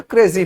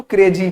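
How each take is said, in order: First: क्रेजी flowing, z in the middle; fluent pronunciation. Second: क्रेजी said hard, with a firm j; क्रेजी punched with a heavy j; stressed pronunciation. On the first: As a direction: glide through क्रेजी as krezi. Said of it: "बहुत fluent आप पढ़ने की कोशिश करेंगे". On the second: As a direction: lean on क्रेजी with a hard j sound. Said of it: "आप बहुत उसको जोर देंगे ना". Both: Shown as a demonstration.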